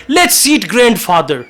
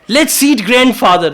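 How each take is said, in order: The two takes are said the same way.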